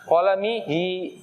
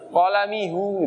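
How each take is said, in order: First: The final syllable ends with an i vowel. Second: The final syllable ends with an u vowel. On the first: The speaker calls it right. "Makanya di kasroh biar enak" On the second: The speaker calls it wrong. "Nggak enak"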